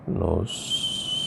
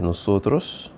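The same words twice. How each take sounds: First: NOSOTROS stretched very slowly, syllable by syllable; drawn-out syllables. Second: Said in the usual way. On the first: Shown as a demonstration. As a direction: sound out NOSOTROS softly as if writing it. Sounds out word while writing it.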